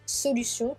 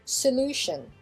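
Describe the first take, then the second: First: The stress is not on the second syllable. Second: The stress is on the second syllable. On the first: "on a solution" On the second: "qui devient solution"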